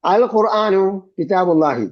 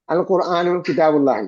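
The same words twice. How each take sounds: First: Slow, careful reading with a strong, clear "അൽ" at the start; slow model reading. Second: Said in the usual way. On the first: Shown as a demonstration. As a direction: read "അൽ ഖുർആനു കിതാബുല്ലാഹി" slowly and give "അൽ" weight. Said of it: "teacher reads example sentence". (പതുക്കെ, "അൽ" ഊന്നി വായിക്കുക) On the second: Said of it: "teacher repeats example sentence".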